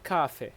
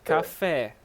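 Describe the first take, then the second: First: "café" stressed on the first syllable; wrong stress. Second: "Café" stressed on the final é; stress on last syllable. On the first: Teacher echoing a student's mistake, "café" wrongly stressed on the first syllable. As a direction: hit the first syllable of "café", let the second drop. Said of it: "So you don't say café". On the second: Teacher correcting a student, "Café" stressed on its final syllable. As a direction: land firmly on the open "fé" of "Café". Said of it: "it means the stress". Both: Shown as a demonstration.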